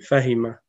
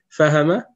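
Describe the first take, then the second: First: The middle vowel is an 'i' sound. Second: The middle vowel is an 'a' sound. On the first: The speaker calls it right. "C'est Fahima" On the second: The speaker calls it wrong. "Fahama, c'est une erreur"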